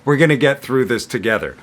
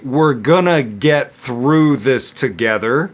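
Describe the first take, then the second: First: The sentence is spoken at a very fast pace. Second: The sentence is spoken at a slow pace. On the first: "And then super fast" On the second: "I'm going to say it slowly"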